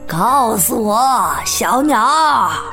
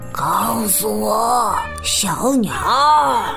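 First: It is said in a normal, fuller voice. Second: It is said in a lowered, quiet voice.

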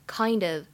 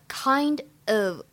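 First: The two words are linked into one. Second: The two words are said separately.

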